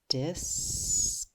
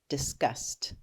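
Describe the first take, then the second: First: The word is said slowly, sound by sound. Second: The word is said quickly as one unit. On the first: "Sound it out again" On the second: "Say it fast"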